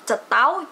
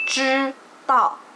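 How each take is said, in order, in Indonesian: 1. Diawali dengan bunyi 'c' Indonesia yang biasa. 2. Diawali dengan bunyi 'zh' Mandarin yang retrofleks. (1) "dari cetao" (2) "benerin ... jadi cetao"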